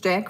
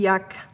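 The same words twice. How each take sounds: First: The name is said with an English 'j' and 'a'. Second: The name is said with a German 'y' and 'u'. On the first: The speaker calls it right. "Jack is just Jack for us" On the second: The speaker calls it wrong. "if I pronounce it the typical German, like reading it like it's written"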